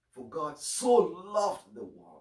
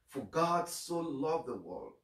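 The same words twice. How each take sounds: First: So stretched and lifted, slow and louder; slow the verse and hang on so; stress on so. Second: Said in the usual way. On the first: Shown as a demonstration. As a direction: lean hard into the word so. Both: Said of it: "Now, the emphasis, so".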